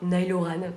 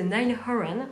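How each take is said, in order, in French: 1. Le nom est prononcé simplement, sans faux accent. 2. Le nom est prononcé avec un faux accent étranger. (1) "on peut simplement dire [name]" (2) "j'ai essayé de faire un accent"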